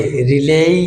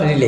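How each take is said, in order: First: রিলেই with a long rising final ei; corrected pronunciation. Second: রিলে with a short final e; wrong pronunciation. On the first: Teacher correcting to রিলেই, long gliding rise. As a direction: stretch and lift the end of রিলেই. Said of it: "not রিলে, রিলেই". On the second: Teacher rejecting the usual রিলে, short ending. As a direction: end রিলে briefly, no glide. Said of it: "not রিলে". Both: Shown as a demonstration.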